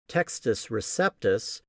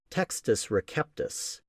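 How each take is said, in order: First: It is said with an English-style pronunciation. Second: It is said with a classical Latin pronunciation.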